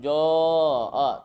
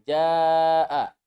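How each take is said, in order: First: The long vowel sounds heavy and dark. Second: The long vowel sounds light and clear. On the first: The speaker calls it wrong. "Jangan joa" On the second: The speaker calls it right. "tapi jaa. Alif madiyah menjadi tipis"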